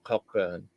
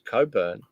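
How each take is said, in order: First: The first syllable is cock, with a k. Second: The first syllable is co, without a k. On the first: The speaker calls it wrong. "not Cockburn" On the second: The speaker calls it right. "It's Coburn"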